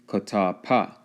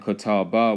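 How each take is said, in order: First: The last syllable begins with a P sound. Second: The last syllable begins with a B sound. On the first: The speaker calls it right. "was actually pa" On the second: The speaker calls it wrong. "The English ba in Catawba"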